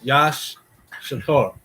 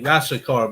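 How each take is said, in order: First: It is split into two separate parts. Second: It is said quickly as one run. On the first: "but it's" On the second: "When you say it fast, it just sounds like"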